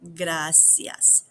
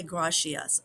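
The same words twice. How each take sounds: First: Gracias with a clean tapped r; right pronunciation. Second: The mistake to avoid: gracias with a w-like r; wrong pronunciation. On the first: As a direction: correct model: Gracias, rolled r. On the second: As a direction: gracias said badly, the r lost. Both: Shown as a demonstration. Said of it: "Don't say".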